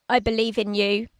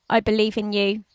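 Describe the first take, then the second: Both takes have the same delivery.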